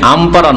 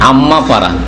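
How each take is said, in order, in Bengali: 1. m ধ্বনিটি ছোট ও একক। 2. m ধ্বনিটি double ও টানা। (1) "আম পারা নয়" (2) "কি বলতে হয়? আম্মা পারা"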